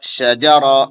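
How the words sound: The syllables are joined into one smooth word. "फिर मिलाएंगे"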